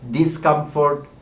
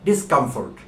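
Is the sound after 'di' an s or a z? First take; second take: z; s. First: The prefix is said with a buzzing z sound. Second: The prefix is said with a hissing s sound. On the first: The speaker calls it wrong. "আমরা এই ডিজ ডিজ বলতে থাকি" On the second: The speaker calls it right. "এটি একটি hissing sound"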